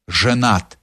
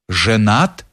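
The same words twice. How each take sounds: First: A touch of indignation, said downward; indignant. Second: Stunned low echo rising at the end; disbelieving echo of the word «Женат»; shocked question. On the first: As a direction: restate it as a reproach, flatly final. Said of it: "повторил с негодованием". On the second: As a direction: repeat it back in disbelief, as a question. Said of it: "вскричал Палицын". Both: A narrator's reading.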